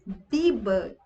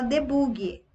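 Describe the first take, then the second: First: "Debug" said dee-bug, clean ending; English "Debug", dee-bug, no extra vowel; correct debug. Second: "debug" said de-boog-ee with an added i; wrong debug. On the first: Shown as a demonstration. Teacher modelling correct "Debug" for devs. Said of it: "pronúncia correta". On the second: Retold or imitated. Teacher imitating a dev's wrong "debug". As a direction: Brazilian "debug" ending in an extra i. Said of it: "Você vai chegar pro cara e falar".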